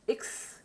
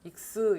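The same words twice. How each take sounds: First: The final s sound ends with no vowel. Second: An extra vowel follows the final s sound. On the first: The speaker calls it right. "끝에 나오는 S는 그냥 S, 모음 없이" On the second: The speaker calls it wrong. "X 이러지 말고"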